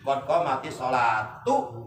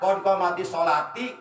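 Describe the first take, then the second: First: The last word ends with an 'oo' vowel. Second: The last word ends with an 'ee' vowel. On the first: The speaker calls it right. "Jadi harus tu" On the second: The speaker calls it wrong. "itu salah. Jadi harus tu, jangan ti"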